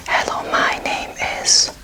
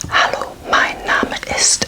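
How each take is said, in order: First: Hello, my name is said slowly; slow whispered English; slow English line. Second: Hallo, mein Name ist with open a in Hallo; slow whispered German; slow German line. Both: Shown as a demonstration. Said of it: "So yet again, fairly similar".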